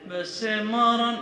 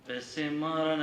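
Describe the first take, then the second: First: It is said loudly, almost shouted. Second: It is said at normal, quieter volume.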